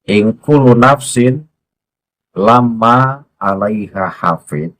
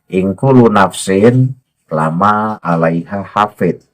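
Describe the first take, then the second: First: The m in lama is doubled and held. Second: The m in lama is short and single. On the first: Lama means 'except'. "di situ lama, di situ ada tasdidnya" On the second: Lama is 'la' with an added 'ma'. "enggak ada tasdidnya"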